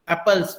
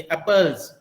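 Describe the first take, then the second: First: एप्पल्स ending in a voiceless s; wrong s ending. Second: एप्पल्स ending in a voiced z. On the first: Teacher showing what to avoid, एप्पल्स with final s. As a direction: say एप्पल्स with a hissed s, not z. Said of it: "not स". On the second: Teacher correcting the plural, एप्पल्स with final z. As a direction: say एप्पल्स with a buzzing z at the end. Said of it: "यहाँ पे ज की तरह". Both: Shown as a demonstration.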